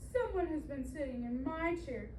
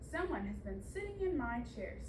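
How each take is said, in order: First: It is said in a small, high voice. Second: It is said in a big, deep voice.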